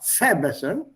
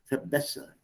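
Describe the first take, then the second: First: The stress falls on the first syllable. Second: The stress falls on the second syllable. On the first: The speaker calls it wrong. "it's not verbessern" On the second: The speaker calls it right. "The stress is on B"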